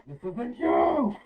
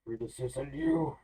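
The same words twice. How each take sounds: First: High, slow shouted plea. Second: Firm plea. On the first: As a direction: yell it slowly to reach him. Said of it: "then you hear him say this". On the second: Player pleads with the monster. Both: Acted.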